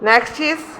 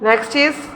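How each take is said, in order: Both takes have the same delivery.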